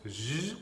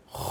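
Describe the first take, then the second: First: J as a soft voiced "zh"; French J. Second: J as a rasped throat "kh"; Spanish J. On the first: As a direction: say J the French way, "jjj". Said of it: "en français ça se prononce". (J à la française, « je ») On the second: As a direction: scrape the J deep in the throat. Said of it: "en espagnol". (J à l'espagnole, raclé en gorge) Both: Shown as a demonstration.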